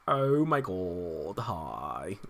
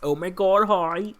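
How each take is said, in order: First: It is said in a Valley girl voice. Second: It is said in a plain, ordinary voice. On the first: The speaker calls it right. "that's how he wants people to say it" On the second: The speaker calls it wrong. "I'm saying it wrong"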